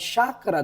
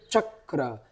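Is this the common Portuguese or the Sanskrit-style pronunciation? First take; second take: common; Sanskrit. First: It is said in the common Portuguese way. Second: It is said in the Sanskrit-style way. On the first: This is how most people say it. "muito mais comum elas falarem chakra" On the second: This is the proper original form. "do que chakra"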